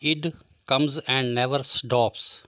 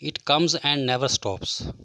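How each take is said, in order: First: The word 'it' ends with a D sound. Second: The word 'it' ends with a clear T sound.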